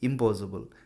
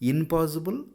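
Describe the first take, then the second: First: It is said with an m before 'possible'. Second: It is said with an n before 'possible'. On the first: The speaker calls it right. "ఇంపాసిబుల్ అనే అంటాము" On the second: The speaker calls it wrong. "ఇన్పాసిబుల్ అని ఎవరు అనము"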